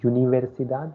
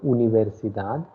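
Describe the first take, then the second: First: The first vowel starts with a 'yoo' sound. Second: The first vowel is a plain 'oo' sound. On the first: The speaker calls it wrong. "it is not universidad. Do not pronounce it like that" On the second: The speaker calls it right. "It is u. So u is pronounced as u"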